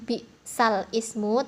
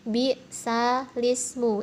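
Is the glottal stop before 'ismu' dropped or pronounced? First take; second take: pronounced; dropped. First: A glottal stop is pronounced before ismu. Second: The words run together without a glottal stop. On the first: The speaker calls it wrong. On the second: The speaker calls it right. "tapi bi salismu, itu nakal"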